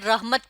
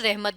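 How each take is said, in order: First: It is said with the Arabic pronunciation. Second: It is said with the everyday Urdu pronunciation. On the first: "ये अरबी ज़बान का लफ्ज़ है इसलिए ये रहमत पढ़ा जा रहा है" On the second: "जब हम इसे उर्दू में पढ़ते हैं तो हम इसे रहमत भी पढ़ सकते हैं"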